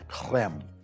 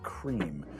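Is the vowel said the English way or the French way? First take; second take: French; English. First: The vowel is an open French eh sound. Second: The vowel is a long English ee sound. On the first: "To say it right, you have to ignore the great vowel shift, put that back at the back of your throat" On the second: "It's a cream"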